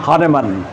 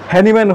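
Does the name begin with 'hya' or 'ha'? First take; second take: ha; hya. First: The first syllable sounds like 'ha'. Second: The first syllable sounds like 'hya'. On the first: "এটাই সঠিক উচ্চারণ" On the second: "আমাদের হ্যানিম্যান"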